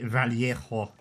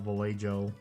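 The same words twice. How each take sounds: First: The name is said with a Spanish-style pronunciation. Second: The name is said with an English-style pronunciation. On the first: Someone else insisted on this pronunciation. "as that one person said years ago" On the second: This is the speaker's own usual pronunciation. "I'll just call it Vallejo"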